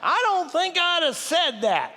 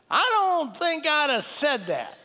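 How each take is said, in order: First: Higher, slower, drawn-out voice of conscience. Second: A raised, slowed voice of conscience. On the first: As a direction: gently chide yourself, drawn out and high. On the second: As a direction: let the inner voice chide, slow and high. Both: Retold or imitated. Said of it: "this voice says to me".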